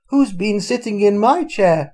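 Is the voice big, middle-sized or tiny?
middle-sized. It is said in a medium, middle-sized voice.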